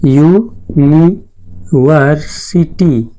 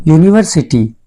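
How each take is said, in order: First: university very slowly, as यू... नि... वर... सि... टी; syllable-by-syllable pronunciation. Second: Said in the usual way. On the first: Shown as a demonstration. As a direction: break university into long, separate syllables. (University को अक्षर-अक्षर अलग करके धीरे बोलें) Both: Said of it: "इसका pronunciation देखेंगे".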